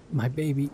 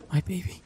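First: Choked, grieving murmur over her son; a mother's broken tenderness. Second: Put-on much higher, rising wail on my baby; a wail of disbelief; anguished cry. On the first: Acted. Mother finds mutilated son. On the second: Mother over the son she killed, wailing.

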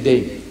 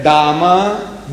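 First: "dame" said the English way, one syllable, rhymes with game; English pronunciation. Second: "Dame" said the Afrikaans way, two syllables, dah-muh; Afrikaans pronunciation. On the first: Spelling out the sign to the audience, English "dame". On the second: Reading the toilet door sign in South Africa, Afrikaans "Dame". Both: Shown as a demonstration. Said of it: "D A M E".

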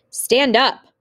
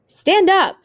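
First: Raised, higher command; shouted order. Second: Loud, very high-pitched yell; yelled order. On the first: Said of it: "what he was shouting". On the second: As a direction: yell the command at full force. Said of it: "he was yelling even more loudly". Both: A narrator's reading.

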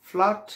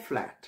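First: ফ্ল্যাট raised and loud, open "aa"; wrong pronunciation. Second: ফ্ল্যাট lower, with the "a" of "cat"; right pronunciation. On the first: Teacher marking the wrong word, loud "flaat". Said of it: "সঠিক শব্দ নয়". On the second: Teacher answering what to say, low "flaet". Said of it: "So আমি কি বলবো?". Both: Shown as a demonstration.

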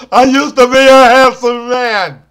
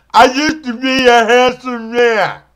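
First: Louder wail. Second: Mournful lament. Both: Acted.

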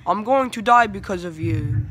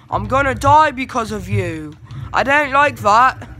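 First: Said in the usual way. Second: Frustrated shout. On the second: Real, not acted. Teammate bot getting him killed.

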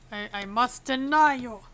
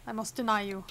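First: "deny" punched louder, in a playful official refusal; stress on "deny". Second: Said in the usual way. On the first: Pretend. Inspector refusing a traveler from Kolechia, stress on "deny". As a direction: lean hard and loud on "deny".

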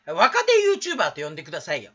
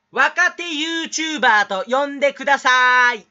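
First: Said in the usual way. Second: Loud, higher, slowed-down exaggerated diction; mock articulate speaker. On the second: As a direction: project every syllable like a showy elocutionist. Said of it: "いい人そうな人のモノマネ". (滑舌のいい人のモノマネ、大声でゆっくり)

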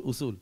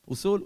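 First: Falling, lower "אוסול"; confirming. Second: Rising question on "אוסול". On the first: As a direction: state "אוסול" as settled, dropping at the end. Zoon bevestigt het woord. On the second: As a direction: say "אוסול" as a query, lifting at the end. Vader vraagt, zoon bevestigt. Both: Acted.

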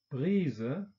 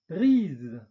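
First: 'Brise' said the German way, with a final schwa, bʁizə; German 'Brise' with a trailing schwa; German-style. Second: 'brise.' said the French way, with a released voiced z; French 'brise.' with no schwa. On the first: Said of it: "deutsche Aussprache ... Schwarlaut". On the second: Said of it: "französischen Aussprache mit Detente". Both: Shown as a demonstration.

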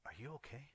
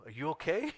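First: Softly imitated girl's question; slightly hushed check-in; girl checking on him. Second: Loud, high comic disbelief; sudden raised-voice double take; incredulous. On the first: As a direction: ask quietly, lightly imitating her. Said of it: "she looks at me and she says". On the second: Retold or imitated. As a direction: blurt it out in mock alarm. Sudden blurted check on the girl.

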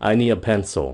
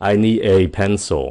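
First: "a" said as a quick "a"; I need a pencil, quick and light; reduced A vowel. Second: "a" said as "e"; I need a pencil with "a" as "eh"; full E vowel. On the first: Teacher contrasting vowels for viewers, quick A. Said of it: "nói nhanh, gọn ... thì nó là à". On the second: Teacher contrasting vowels for viewers, full E. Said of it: "muốn nhấn mạnh cái gì đó thì các bạn dùng cái âm E". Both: Shown as a demonstration.

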